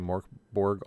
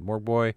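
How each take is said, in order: First: The name is said in an English-like way. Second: The name is said in a Swedish-like way. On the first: The speaker calls it wrong. "I used to say Morkborg all the time" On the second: The speaker calls it right. "I'm trying to do it right"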